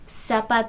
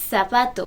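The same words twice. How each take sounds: First: The z is said like English s. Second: The z is said like English th. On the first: This is how it is said in Latin America. "in Latin America, you're going to listen to that as zapato" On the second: This is how it is said in Spain. "you may hear in Spain zapato"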